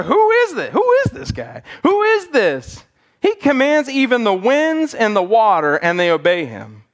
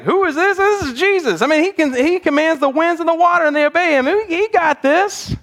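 First: Awestruck, fearful "Who is this guy?"; frightened disciples asking who this is; fearful emphasis. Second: "Who is this?" rising high and eager, "This is Jesus" proud; thrilled, confident "He got this"; excited emphasis. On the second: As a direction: disciples excited that they know who Jesus is. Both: Retold or imitated. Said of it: "maybe it was a different emphasis".

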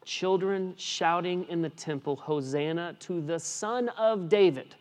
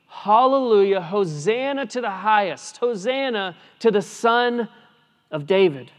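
First: Said in the usual way. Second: Hallelujah and Hosanna cried high and loud; joyful proclaiming. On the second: Shown as a demonstration. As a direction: proclaim it like the children in the temple. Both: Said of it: "Children proclaiming".

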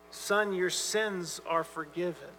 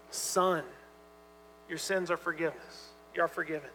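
First: Softer, slow, gentle pardon; tender and gracious. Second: Soft, gentle words of pardon to a son; tender authority. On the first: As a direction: let each word land gently and slowly. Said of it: "it's got a tenderness to it". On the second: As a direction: speak it tenderly, like a father forgiving. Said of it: "and tender". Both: Retold or imitated.

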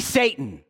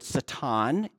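First: Said in the usual way. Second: Satan said sa-TAHN, Hebrew style; Satan with stress on the second syllable, ah vowel; Hebrew pronunciation. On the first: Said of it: "he rebuked Peter and said". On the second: Shown as a demonstration. Preacher giving the Hebrew word, Satan as sa-TAHN. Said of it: "It's a Hebrew word".

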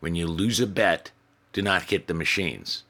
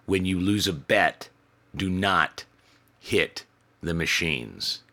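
First: Said in the usual way. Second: "hit" slowed and leaned on, each word spaced; slow stern emphasis. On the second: Shown as a demonstration. Manager repeating the rule slowly and firmly to the drunk. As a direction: spell it out slowly so it sinks in. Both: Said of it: "repeated warning".

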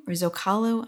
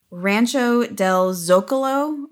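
First: "Zocalo" with stress on the middle syllable, zo-CA-lo. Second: "Zocalo" with stress on the first syllable, ZO-ca-lo. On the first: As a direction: try "Zocalo" as zoh-KAH-loh, unsure. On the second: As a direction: say "Zocalo" as ZOH-kuh-loh, unsure. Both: Shown as a demonstration. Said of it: "I'm not sure how to say it".

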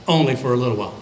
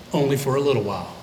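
First: Said in the usual way. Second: Fast, dry remark; said fast, almost under the breath; quick throwaway aside. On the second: Shown as a demonstration. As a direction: toss it off quickly. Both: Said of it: "repeated line".

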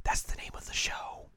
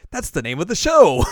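First: Whispered, no voice. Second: Loud, high exclaim; excited shout. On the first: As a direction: breathe it as a whisper. Contrasting take whispered. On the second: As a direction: shout it with delight. Contrasting take shouted. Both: Retold or imitated.

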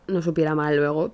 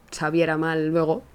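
First: "supiera" fixed, said with su as it should be; self-correction. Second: "sabiera" said with sa instead of su, a real slip; slip of the tongue. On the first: Correcting her own slip to listeners, "supiera" said properly. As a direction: put it right: "supiera" with a clear u. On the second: Narrating the smoky meat, blurting "sabiera" by mistake. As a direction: trip into "sabiera" with the vowel a. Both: Real, not acted.

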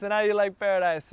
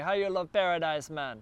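First: Put-on a bigger go at the Jamaican accent; louder mock Jamaican accent, pleased with it. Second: Light mock Jamaican accent on the question; a hint of a Jamaican accent, playful. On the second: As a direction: toss off a casual Jamaican accent imitation. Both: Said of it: "that's my Jamaican accent".

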